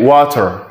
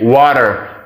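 First: The t is a clear, crisp t sound. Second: The t sounds like a quick soft d. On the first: "but British say water" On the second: "Americans say water"

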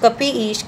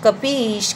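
No difference in how they are said.

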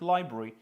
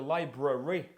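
First: The unstressed middle syllable is dropped. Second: The unstressed middle syllable is fully pronounced. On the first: The speaker calls it right. "вони кажуть library" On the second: The speaker calls it wrong. "щоб не вимовляти library"

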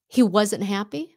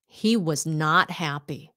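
First: The word not is contracted onto was. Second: The word not is said in full. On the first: A plain statement without special emphasis. "Instead of saying" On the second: The speaker stresses that he was unhappy. "don't use contractions when they want to emphasize something"

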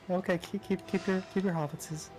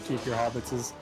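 First: It is said in a soft villain character voice. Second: It is said in a fairly plain voice. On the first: "That's a little Saruman by way of Bob Ross" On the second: "Saruman wouldn't say it like that"

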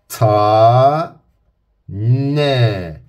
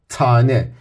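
First: The word is split into two separate syllables. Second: The word is said smoothly as one unit. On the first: "önce heceleri söylüyorum" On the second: "Sonra kelimeyi vurguluyorum"

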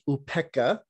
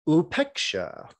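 First: It is said with the Pali pronunciation. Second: It is said with the Sanskrit pronunciation.

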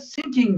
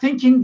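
First: The word begins with an s sound. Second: The word begins with a soft th sound. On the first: The speaker calls it wrong. "T yerine S ile söylüyorlar" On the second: The speaker calls it right. "Almanlar thinking diyemiyor"

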